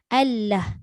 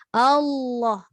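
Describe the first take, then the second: First: The l is light, tongue front only. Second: The l is dark, tongue back raised. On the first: The speaker calls it wrong. "Kalau kita sebut Allah nipis ... Dia hanya angkat depan je" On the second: The speaker calls it right. "Macam mana boleh jadi tebal? Belakang pun dia terangkat ke langit"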